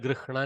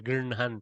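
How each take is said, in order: First: The h sound comes before the n. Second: The n sound comes before the h. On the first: This form is hard to say. "you see the struggle" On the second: This form comes naturally and is allowed. "Grinhan is easier"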